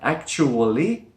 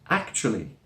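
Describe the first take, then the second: First: The word is said with four syllables. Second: The word is said with three syllables. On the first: "it looks like actually, the way it's written with four syllables" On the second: "we drop the schwa sound, and it becomes actually"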